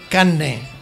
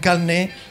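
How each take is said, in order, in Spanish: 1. La r se reemplaza por una n doble. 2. La consonante antes de la n es una l. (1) "cuando no en doble N" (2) "se convierte en carne"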